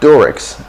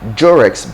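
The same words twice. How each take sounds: First: It begins with a plain d sound. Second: It begins with a j-like sound. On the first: "American English"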